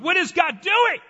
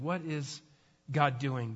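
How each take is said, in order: First: It sounds frustrated, like an exclamation. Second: It sounds gentle and humble, like a question.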